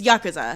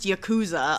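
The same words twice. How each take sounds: First: The middle u is clipped and nearly silent. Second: The middle u is said as a full vowel. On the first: The speaker calls it right. "it's sort of like a hiccup syllable" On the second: The speaker calls it wrong. "gets pronounced Yakuza a lot"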